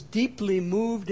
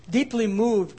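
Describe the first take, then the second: First: Said in the usual way. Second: Deeply moved with a firm push on Deeply; stress on deeply. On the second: Shown as a demonstration. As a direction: lean into Deeply, then let moved fall. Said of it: "that word sometimes".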